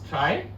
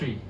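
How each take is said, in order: First: The vowel sounds like the one in 'sky'. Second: The vowel sounds like the one in 'see'. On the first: "Some pronounce as try" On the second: "some pronounce as tree"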